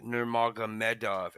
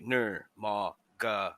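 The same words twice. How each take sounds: First: Said in the usual way. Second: NURMAGOMEDOV very slowly, each syllable on its own. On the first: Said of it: "I was like, "Nurmagomedov". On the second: Shown as a demonstration. Podcaster showing how he practised a Russian name, NURMAGOMEDOV broken into syllables. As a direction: break NURMAGOMEDOV into separate beats, nur, ma, go, me, dov. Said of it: "broke it down into syllables".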